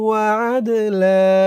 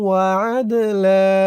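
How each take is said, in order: No difference in how they are said.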